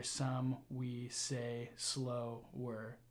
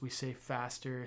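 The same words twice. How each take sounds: First: Drawn-out, very slow words; slower. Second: Said in the usual way. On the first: Shown as a demonstration. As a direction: stretch each word out to show slowness. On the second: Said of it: "some syllables we say faster".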